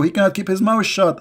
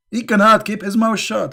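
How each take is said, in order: First: Said in the usual way. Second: "cannot" hit higher and harder; stress on cannot. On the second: Shown as a demonstration. Repeating the jab to listeners, "cannot" raised and stressed. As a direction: lean into "cannot", pitched up.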